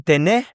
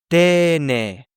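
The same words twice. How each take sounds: First: Tene with the last E stressed, rising; wrong take: teNE, lifted at the end; stress on the final syllable. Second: Tene with the first E stressed and drawn out; very slow TE-ne, long first vowel; stress on the first syllable. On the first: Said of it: "We're not saying tene". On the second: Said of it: "This beginning E has stress now". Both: Shown as a demonstration.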